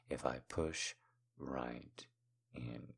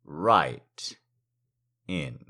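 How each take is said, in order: First: Low, intimate hush with pauses; hushed teasing. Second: RIGHT pushed out louder, then a pause before IN; firm, separated words; emphatic teasing. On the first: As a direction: let each word sink almost to nothing. Lingering, teasing repeat of phrase. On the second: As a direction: lean hard on "right", then let "in." drop. Same phrase repeated with more push. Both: Acted.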